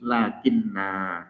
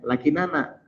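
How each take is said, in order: First: The two n sounds merge into one doubled n. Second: Two separate n sounds have a vowel between them. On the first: "digabungkan jadi satu sehingga berbunyi lakinna" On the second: "lakinana jadinya"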